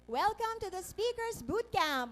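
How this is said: The voice is thin and shrill, from the throat.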